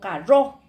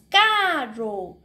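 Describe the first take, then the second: First: The stress is on the second syllable. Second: The stress is on the first syllable. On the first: The speaker calls it wrong. "no carro" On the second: The speaker calls it right. "la sílaba donde nosotros tenemos que alzar la voz es en K"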